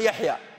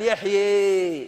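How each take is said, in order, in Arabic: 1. الحركة الأخيرة فتحة صريحة مفتوحة 'a'. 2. الحركة الأخيرة مائلة نحو 'e'.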